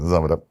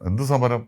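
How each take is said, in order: First: The syllables are run together loosely and naturally. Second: Every syllable is pronounced separately and precisely. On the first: The speaker calls it right. "Live നമ്മുടെ ജീവിതത്തിലാണെങ്കിൽ" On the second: The speaker calls it wrong. "ഓരോ അക്ഷരങ്ങളും പെറുക്കി പറയും"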